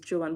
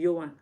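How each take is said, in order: First: The name begins with an English J sound. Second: The name begins with a Y sound. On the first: "they called her with the J" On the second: "if you pronounce it the Dutch way"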